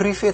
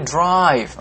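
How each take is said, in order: First: It is said with an Indonesian-style misreading. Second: It is said with standard English pronunciation. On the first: The speaker calls it wrong. "bukan drive" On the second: The speaker calls it right. "tapi drive"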